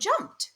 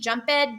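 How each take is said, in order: First: The ending is joined without an extra syllable. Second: The ending is said as a separate syllable. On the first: The speaker calls it right. "There we go" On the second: The speaker calls it wrong. "then they'll add on the ed"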